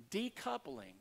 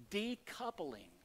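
First: Decoupling repeated on a much higher pitch; high stressed repeat. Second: Decoupling drawn out slowly, each syllable weighed; slow emphasis. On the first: Preacher repeating a key word to the congregation, pitched high for stress. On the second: Preacher teaching the congregation, slowly drawn-out key word. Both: Shown as a demonstration.

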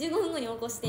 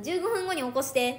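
First: 十五分後 with stress on 分, evenly spoken; calm clear command; command to Siri. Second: 十五分後 said clearly, a bit louder, stress on 分; firm spoken command to a phone; telling the phone when to wake her; command to Siri. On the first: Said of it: "みたいな". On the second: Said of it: "って言うねん". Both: Shown as a demonstration.

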